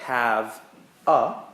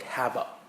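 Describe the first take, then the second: First: The two words are said clearly apart. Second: The two words are run together quickly.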